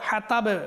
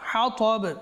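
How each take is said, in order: First: The 't' sound is light and plain. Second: The 't' sound is heavy and emphatic. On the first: The speaker calls it wrong. "বলবেন না" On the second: The speaker calls it right. "এটা হচ্ছে"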